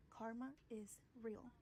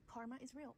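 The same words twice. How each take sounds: First: Slowed down, each word weighted; a deliberate, drawn-out warning; slow emphatic. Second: Said in the usual way. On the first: Real, not acted. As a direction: lay it down slowly, like a verdict. Repeats slogan, second slower.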